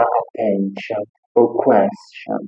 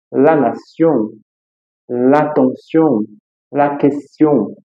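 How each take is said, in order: First: Attention and question said with a sh sound; wrong way. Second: Slow, with the tion said as sion; la nation said slowly, syllable by syllable; correct French. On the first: Teacher shows the mistake with -tion. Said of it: "Eu não vou falar". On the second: Teacher slowly shows the right -tion words. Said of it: "Eu vou falar". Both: Shown as a demonstration.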